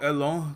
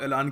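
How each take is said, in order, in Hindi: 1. यह फ्रेंच लहजे में बोला गया है। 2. यह भारतीय लहजे में बोला गया है। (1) "फ्रेंच एक्सेंट में तो इसको एलों कहोगे आप" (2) "हम लोग देसी लोग हैं, तो हम ऐलान कह सकते हैं"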